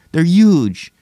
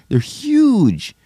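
First: High exclaim. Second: High squeal. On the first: Repeat of the huge line. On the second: Mocking the huge glasses. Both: Pretend.

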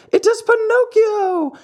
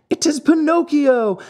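First: Even higher, louder, climbing cry; rising excited yell. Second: High, loud joyful yell; excited yell. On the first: The marionettes yell for their brother, climbing higher and louder. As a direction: push the repeat higher than the first call. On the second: The marionettes pour out of the wings, yelling high and loud. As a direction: call his name out in delight. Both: A narrator's reading. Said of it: "yelled all the marionettes".

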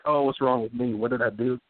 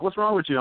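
First: Self-doubting parent. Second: Exasperated parent. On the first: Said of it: "I'm like". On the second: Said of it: "instead of me being like". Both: Retold or imitated.

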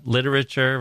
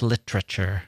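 First: "Literature" with all four syllables sounded; four-syllable pronunciation. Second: "literature" squeezed into three syllables; three-syllable pronunciation. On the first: Host contrasts his version with the English one, four-syllable "Literature". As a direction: give "Literature" a rippling four syllables, like an arpeggio. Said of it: "using four syllables". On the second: Host mimics the listener's English version, three-syllable "literature". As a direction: drop a vowel so "literature" has only three syllables. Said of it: "unlike the three-syllable version".

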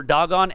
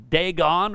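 First: Dagon pronounced DAH-gon; alternative pronunciation. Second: Dagon pronounced DAY-gon; first pronunciation. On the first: Preacher giving both names for the idol, Dagon second as DAH-gon. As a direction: open Dagon on a "dah" sound. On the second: Preacher giving both names for the idol, Dagon first as DAY-gon. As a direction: open Dagon on a long "day" sound. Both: Shown as a demonstration. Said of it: "some people may pronounce".

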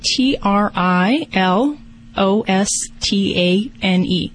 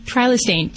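First: Slow letter by letter spelling. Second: Said in the usual way. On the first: Shown as a demonstration. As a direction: spell each letter out slowly. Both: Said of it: "Can you spell that Trilostane for me".

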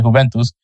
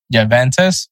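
First: Juventus said the Italian way, 'yoo-VEN-toos'; Italian Juventus with a Y sound and a final 'toos'. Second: Juventus said the English way, with a J and 'tuss'; anglicised Juventus, 'juh-VEN-tuss'. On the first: Podcaster switches to the Italian way, saying Juventus. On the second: Juventus the way an American podcaster says it. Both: Shown as a demonstration. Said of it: "or as everyone says it".

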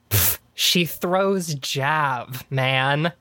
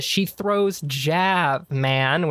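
First: Slow, knowing drawl with a scoff. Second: Slow scoffing punchline drawl; retelling the punchline to a van, slow and drawn; slow knowing drawl. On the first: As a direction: stretch it out like the answer is obvious. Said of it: "And he goes". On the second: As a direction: land the punchline slowly. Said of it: "I get to the". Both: Retold or imitated.

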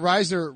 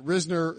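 First: Risner said as RYZE-ner; first syllable of Risner rhymes with "size"; long-i pronunciation. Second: Risner said as RIZ-ner; first syllable of Risner rhymes with "fizz"; short-i pronunciation. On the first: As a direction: say Risner with the vowel of "eye". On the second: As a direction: say Risner with the vowel of "sit". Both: Shown as a demonstration. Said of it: "Is it Risner or Risner?".

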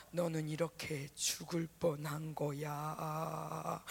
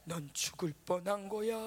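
First: Low, slow ominous voice; slow and low, like a menacing whisper in the head; haunting inner voice. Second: Low ominous taunt; haunting inner voice. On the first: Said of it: "이렇게 자꾸 들리는 거야". (낮고 느린 불길한 목소리) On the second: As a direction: say it low like a voice in the head. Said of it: "자꾸 이 소리가 들리니까". (낮은 불길한 속삭임 같은 목소리) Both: Retold or imitated.

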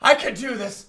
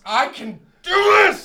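First: Said in the usual way. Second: Louder shouted self-encouragement. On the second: Acted. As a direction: yell it to psych yourself up.

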